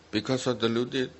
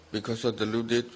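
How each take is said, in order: Both takes have the same delivery.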